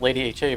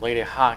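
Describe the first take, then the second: First: 'Ha' is spelled out as two separate letters. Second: 'Ha' is said as a single one-syllable word. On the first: The speaker calls it wrong. "I was gonna say is it Lady H A" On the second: The speaker calls it right. "but I've heard you pronounce it before"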